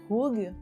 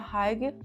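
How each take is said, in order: First: The first vowel sounds like 'uh'. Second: The first vowel sounds like 'eye'. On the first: The speaker calls it right. "mas é algo meio que Hug" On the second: The speaker calls it wrong. "Eu sei que não se pronuncia Haig"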